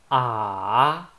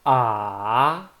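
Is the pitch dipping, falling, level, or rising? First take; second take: dipping; dipping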